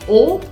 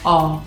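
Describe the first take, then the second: First: The vowel is said with a closed mouth. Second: The vowel is said with an open mouth. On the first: "puede ser más cerrada" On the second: "o bien"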